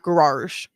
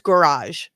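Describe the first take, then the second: First: The word is said with an extra R sound. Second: The word is said with one R sound. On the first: The speaker calls it wrong. "not garage. There's only one R" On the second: The speaker calls it right. "it's garage"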